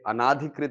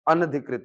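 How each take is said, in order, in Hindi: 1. 'an' के बाद लंबा 'aa' स्वर आता है। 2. 'an' के बाद छोटा स्वर आता है। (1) "ये अनाधिकृत नहीं होता सर" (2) "अनधिकृत होता है"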